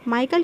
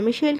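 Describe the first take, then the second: First: The name has a K sound in the middle. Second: The name has an SH sound in the middle. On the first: The speaker calls it wrong. "माइकल क्यों नहीं बोल रही हूँ मैं" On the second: The speaker calls it right. "मिशेल क्यों बोल रही हूँ"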